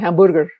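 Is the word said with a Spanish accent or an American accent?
Spanish accent. It is said with a Mexican Spanish accent.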